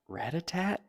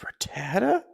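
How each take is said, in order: First: The name ends with a final T sound. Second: The name ends on a vowel, no final T. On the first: The speaker calls it wrong. "Is it not Ratatat?" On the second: The speaker calls it right. "It's Ratata"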